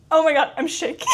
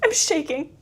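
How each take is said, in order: First: Overwhelmed fan shriek dissolving into laughter; real excited shout into a high laugh; shaking with excitement. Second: Said in the usual way. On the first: Real, not acted. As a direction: cry it out, half laughing, half shouting.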